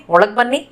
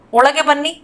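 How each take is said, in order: First: ಒಳಗ್ ಬನ್ನಿ said "olag banni"; colloquial short form. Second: Said in the usual way. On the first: Shown as a demonstration. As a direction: drop the final e of ಒಳಗ್. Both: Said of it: "इसको बोलेंगे".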